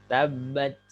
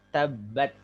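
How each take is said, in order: No difference in how they are said.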